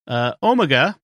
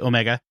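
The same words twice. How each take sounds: First: The word is said the British way. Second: The word is said the American way.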